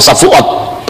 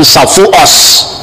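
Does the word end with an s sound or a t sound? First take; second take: t sound; s sound. First: The final consonant is a t sound. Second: The final consonant is an s sound. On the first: "orang-orang Yahudi Spanyol itu lebih fasih bahasa Ibrani. Kalau ngomong Safuot ya Safuot" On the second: "dia tidak bisa ngomong huruf T, ... tapi mengucapkan Safuos"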